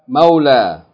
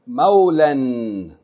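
First: The word ends in a long vowel, no n. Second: The word ends with an n sound. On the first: The reader stops on the word. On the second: The reader keeps reading past the word.

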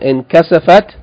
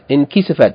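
First: The vowel after the k is 'a'. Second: The vowel after the k is 'i'. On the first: The speaker calls it right. "it should be fatah" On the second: The speaker calls it wrong. "In my book it has in kisafat"

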